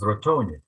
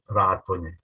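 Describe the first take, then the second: First: The stress is not on the first syllable. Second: The stress is on the first syllable. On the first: The speaker calls it wrong. "always mispronounced as" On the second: The speaker calls it right. "with the accent on the first syllable"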